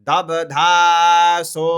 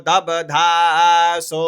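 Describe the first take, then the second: No difference in how they are said.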